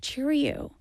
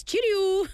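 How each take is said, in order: First: Cheerio in a flat American accent; mock-American Cheerio. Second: High, bright British-style cheerio with a tapped t; proper British cheerio. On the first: Host demos an American Cheerio, American accent. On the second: Host corrects to a British-style cheerio. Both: Shown as a demonstration. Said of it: "you can't say it in an American accent".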